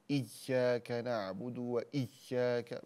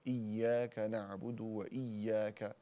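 First: إياك with the double ya squeezed hard, very slow; overpressed shadda. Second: إياك with the double ya clear but unforced, slow; clear shadda on iyyaka. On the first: Teacher mimics students overdoing the shadda, slow and forced. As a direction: clamp down on the ya of إياك. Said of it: "بعضهم يفعل هذا من شدة ضغطه". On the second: Teacher shows students the correct shadda, slow and clear. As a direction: show the shadda in إياك gently and slowly. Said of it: "الشدة جيدا". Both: Shown as a demonstration.

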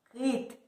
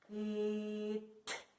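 First: Said in the usual way. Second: Long "и", then a separate "т"; stretched "кит". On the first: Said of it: "Вийшло слово у нас яке?". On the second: Shown as a demonstration. Teacher showing children the last sound, stretched "кит". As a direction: draw out "кит" up to the final "т". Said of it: "І останній звук".

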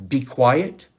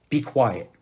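First: Louder, firm command to the racing mind; firm self command. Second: Said in the usual way. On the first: Shown as a demonstration. Telling your racing mind to hush, firmly. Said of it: "use that inside voice and say". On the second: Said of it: "tell yourself".

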